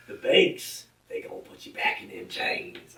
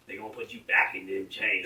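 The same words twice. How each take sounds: First: Put-on Southern-accent parody, high start dropping to hoarse hush; mock a pandering politician in a Southern accent; Joe Biden. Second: Joe Biden. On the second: Retold or imitated. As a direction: imitate a politician putting on a Southern accent. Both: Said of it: "He doesn't talk like that".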